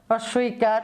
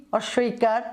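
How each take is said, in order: Both takes have the same delivery.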